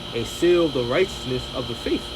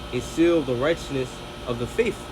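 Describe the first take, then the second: Both takes have the same delivery.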